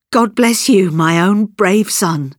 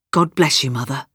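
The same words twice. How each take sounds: First: Heartfelt cry, high start, slowing down; emotional cry. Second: Tender farewell. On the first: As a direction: cry out a blessing, then draw it out. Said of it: "and she cried". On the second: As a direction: give a subdued, loving goodbye. Father's tender farewell to his mother. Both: A narrator's reading.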